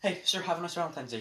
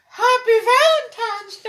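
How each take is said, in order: First: Said in the usual way. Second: Very high, loud, slow put-on voice; hammed-up greeting. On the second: Friend mocks the Valentine's greeting to an old man, hammed-up falsetto. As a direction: squeal it like a silly caricature.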